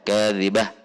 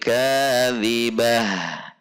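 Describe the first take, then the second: First: The final h stops abruptly. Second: The final h trails off with breath. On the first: The speaker calls it wrong. "tidak langsung habis" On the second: The speaker calls it right. "tetapi kadzibah. Ada aliran"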